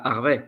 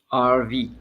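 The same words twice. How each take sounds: First: The name is pronounced with a French accent. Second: The name is pronounced with an English accent. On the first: The speaker calls it wrong. "Harvey in French" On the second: The speaker calls it right. "but it's Harvey"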